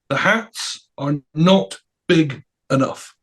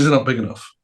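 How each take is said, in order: First: "not big enough" word by word, slowly; slow, weighty stress on "not"; emphatic dictation. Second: Said in the usual way. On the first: Retold or imitated. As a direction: spell out "not big enough" with a pause after each word. [name] dictates his message to Rick.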